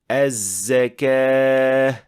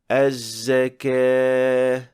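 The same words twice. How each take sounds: First: The z sound has a strong whistle. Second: The z sound has a weak whistle. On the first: The speaker calls it right. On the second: The speaker calls it wrong.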